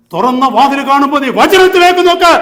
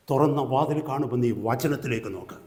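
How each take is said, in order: First: Loud, high preacher's shout; full-force preaching. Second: Said in the usual way. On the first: Real, not acted. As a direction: thunder it out to the congregation. Same words repeated at full force.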